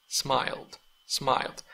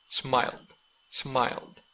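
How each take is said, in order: Both takes have the same delivery.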